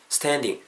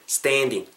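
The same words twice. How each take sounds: First: Said in the usual way. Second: "standing" with a wide steh-en glide; "standing" said with lips drawn sideways; spread-lipped vowel. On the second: Shown as a demonstration. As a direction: widen and stretch the a in "standing". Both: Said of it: "다르죠?".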